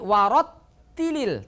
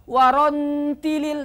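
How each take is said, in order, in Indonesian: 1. Bunyi t ditahan dengan rapat. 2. Bunyi t tidak ditahan. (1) "tapi warattilil tertahan" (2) "tidak bisa warontilil"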